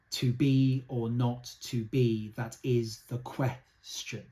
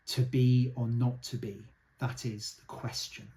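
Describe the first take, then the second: First: Very slow to be or not to be, beat by beat; slow, deliberate verse reading; slow metered reading. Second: Said in the usual way. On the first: Shown as a demonstration. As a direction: count out the meter slowly. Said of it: "if you just look at it". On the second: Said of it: "most famous line in all".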